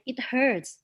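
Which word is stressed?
hurts. The stress falls on the word hurts. The speaker calls it right. "So you should say it hurts"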